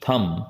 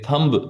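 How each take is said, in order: First: No b sound is heard at the end. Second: A b sound is heard at the end. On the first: The speaker calls it right. "बी इसमें silent है" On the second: The speaker calls it wrong. "इसे थंब नहीं बोलेंगे"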